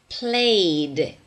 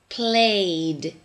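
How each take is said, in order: No difference in how they are said.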